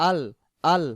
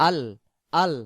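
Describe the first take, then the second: No difference in how they are said.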